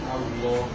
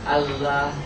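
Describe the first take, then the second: First: The l sound is heavy and full. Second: The l sound is light and thin. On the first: This is the form used for the divine name. "al-lam al mufakhom" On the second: This is the original form. "Aslinya Allah"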